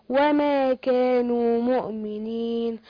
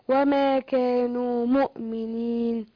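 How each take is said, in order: No difference in how they are said.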